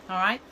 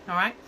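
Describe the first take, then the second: No difference in how they are said.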